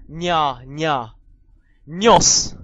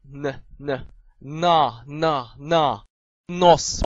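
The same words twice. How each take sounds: First: N said "nye, nya", palatalized; soft N. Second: Plain n, then 那 as "na"; hard N. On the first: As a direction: drill N loudly with a y-glide, nose as "nyos". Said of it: "軟音". (軟音n，加耶音大聲讀nose) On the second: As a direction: drill N and 那 with no glide, into nose. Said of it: "硬音N". (硬音n，逐個讀那) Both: Shown as a demonstration.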